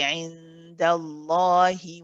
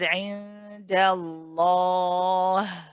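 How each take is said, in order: First: It ends on a short i vowel. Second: It ends on a drawn-out breathy h sound. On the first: The reader carries on into the next word. "you pronounce this kasra" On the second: The reader stops after this word. "we kept it running"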